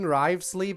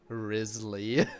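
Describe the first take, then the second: First: The name has a 'v' sound in the middle. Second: The name has no 'v' sound in the middle. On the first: This is how everyone in the game says it. The speaker calls it wrong. "everyone in the game saying Rivesley" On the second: This is the technically correct pronunciation. The speaker calls it right. "the correct pronunciation would technically be Risley"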